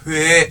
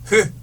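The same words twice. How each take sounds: First: The lips round while the vowel glides. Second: The lips stay rounded through one steady vowel. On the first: This is the central-region pronunciation. "중부지방 사람들은 그래서 회 이렇게 발음하는데" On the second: This is the southern-region pronunciation. "아랫역 양반들은 회 이렇게 발음한단 말이야. 동그랗게 만들어"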